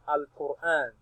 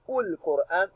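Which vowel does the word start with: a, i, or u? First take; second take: a; u. First: The word begins with an a vowel. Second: The word begins with a u vowel. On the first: The speaker calls it right. "We now read it as al-Qur'an" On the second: The speaker calls it wrong. "You will never hear ul-Qur'an"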